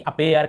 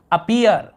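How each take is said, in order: First: अपेयर, ending like "air"; mistaken ay vowel. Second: Slow अपीयर with "ee-er"; अपीयर, ending like "ear". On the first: Teacher showing students the misreading, अपेयर with "ay-er". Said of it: "ऐसे नहीं पढ़ रहे हैं कि अपेयर". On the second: Teacher modelling EA as ee for students, अपीयर with "ee-er". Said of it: "हम ई". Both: Shown as a demonstration.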